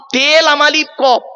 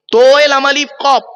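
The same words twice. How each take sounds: First: "তে" with a light t and e vowel; Arabic spelling. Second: "তোয়ে" heavy and rounded, pitched higher; Arabic spelling. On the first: Preacher contrasting the letters, light "তে". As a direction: spell it higher, stressing a thin "তে". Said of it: "তালাক মানে". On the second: Preacher spelling in Arabic, heavy "তোয়ে". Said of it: "আরবি উচ্চারণ কি?". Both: Shown as a demonstration.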